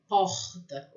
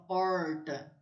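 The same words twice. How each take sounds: First: "porta" with a guttural, throat-made R. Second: "porta" with a retroflex R up in the mouth; R without throat. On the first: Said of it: "eu sinto na minha garganta". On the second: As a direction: curl the R of "porta", keeping the throat out. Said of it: "eu não sinto". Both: Shown as a demonstration.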